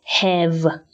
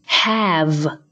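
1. 这个元音嘴巴张得没那么大。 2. 这个元音嘴巴张得很大。

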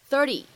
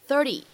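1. 这个 t 是短促、轻柔的闪音。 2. 这个 t 是短促、轻柔的闪音。

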